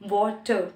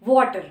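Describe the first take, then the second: First: It is said in a British accent. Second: It is said in an American accent. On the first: "British they use water" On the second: "in the American English they say water"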